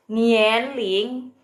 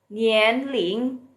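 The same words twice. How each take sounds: First: Nian Ling with a rising second tone; Mandarin Nian Ling. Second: Nian Ling again, same rising tone; Mandarin Nian Ling. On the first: Teacher models a new word for live viewers, rising. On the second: Teacher repeats the word for viewers, rising. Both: Shown as a demonstration. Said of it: "Nian Ling itu artinya umur".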